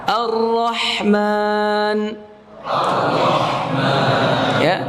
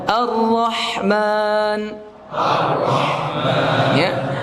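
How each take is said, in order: No difference in how they are said.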